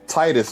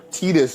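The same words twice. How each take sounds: First: The name is said in a casual pronunciation. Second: The name is said in its technical pronunciation. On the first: "I ain't gonna say it that way" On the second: "is the technical way to say it"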